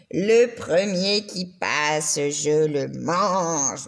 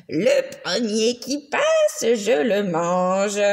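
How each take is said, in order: First: Lower, very slow, growling monster voice; sinister monster. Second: Slow, sneering monster voice; sinister monster. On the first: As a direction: drag it out low and patient like a hungry beast. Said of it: "il continuait à attendre et à dire". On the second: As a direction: menace it slowly like a hungry beast. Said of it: "disait avec des ricanements sinistres". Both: A narrator's reading.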